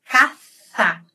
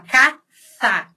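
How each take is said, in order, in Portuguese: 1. A primeira consoante é ceceada, com a língua entre os dentes. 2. A primeira consoante é ceceada, com a língua entre os dentes.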